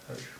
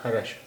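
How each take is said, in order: First: The r joins the next consonant without a vowel. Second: A full vowel follows the r sound. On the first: The speaker calls it right. "हलंत वाले रा की जो आवाज़ है वो आ रही है" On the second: The speaker calls it wrong. "अगर पूरे रा की आवाज़ होती तो ये हो, हो जाता"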